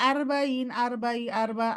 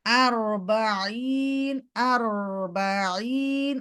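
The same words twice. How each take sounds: First: Quick আরবাঈন without the held trill; common mistake. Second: Very slow আরবাঈন with held rolled r; correct recitation. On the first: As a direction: rush through the r of আরবাঈন. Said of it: "অনেকে আমরা বলি". (তাড়াহুড়ো করে ভুল আরবাঈন) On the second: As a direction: draw out every syllable of আরবাঈন. Teacher models correct recitation. (টেনে টেনে আরবাঈন) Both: Shown as a demonstration.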